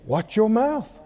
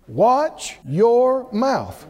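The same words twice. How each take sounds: First: Said in the usual way. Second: "Watch your mouth" drawn out slowly, each word weighted; slow and deliberate. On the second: Real, not acted. Preacher giving the congregation the key instruction, slow and deliberate.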